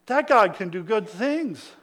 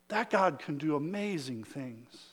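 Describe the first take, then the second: First: Said in the usual way. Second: Much softer, lower marvelling line; a soft, awed undertone; hushed awe. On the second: Shown as a demonstration. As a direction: drop it to a near hush in wonder. Repeated line, dropped to hush.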